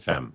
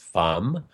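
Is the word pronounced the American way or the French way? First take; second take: American; French. First: The word is said with an American pronunciation. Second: The word is said with a French pronunciation. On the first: "here in America, we're pronouncing it Femme" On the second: "it's really should be pronounced Femme, because it's the French word for woman"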